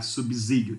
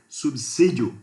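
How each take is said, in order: First: The middle consonant sounds like a Z. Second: The middle consonant sounds like an S. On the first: The speaker calls it wrong. "a letra S não pode ter som de Z" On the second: The speaker calls it right. "tem que ser subsídio, porque é um S que está lá"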